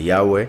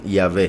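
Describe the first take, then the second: First: The middle sound is said as a vowel u. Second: The middle sound is said as a consonant v. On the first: The speaker calls it right. "se pronuncia como una vocal" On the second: The speaker calls it wrong. "por un error en la pronunciación"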